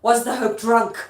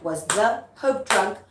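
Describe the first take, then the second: First: Loud accusing question; Lady Macbeth performed with force; dramatic stage delivery. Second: Put-on "Was the hope drunk" slow and measured, syllable by syllable; exaggerated metrical "Was the hope drunk", slowly spaced; unnatural iambic rehearsal. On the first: Acted. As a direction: throw it out as a theatrical challenge. Acts the line after scansion demo. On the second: Shown as a demonstration. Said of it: "you're not gonna make it that unnatural".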